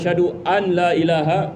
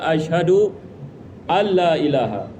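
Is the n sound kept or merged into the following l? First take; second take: kept; merged. First: The n is kept separate before the l. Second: The n merges into a doubled l sound. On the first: The speaker calls it wrong. "kita tidak menghidupkan idghamnya. Ini bukan cara yang betul" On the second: The speaker calls it right. "yang betul adalah asyhadu alla ilaha. Ini ada idgham"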